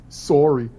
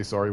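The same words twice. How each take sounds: First: Canadian "sorry" with a rounded first vowel; very Canadian accent. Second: Said in the usual way. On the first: Shown as a demonstration. Streamer showing how it is said, Canadian accent on "sorry". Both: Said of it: "with the very Canadian accent".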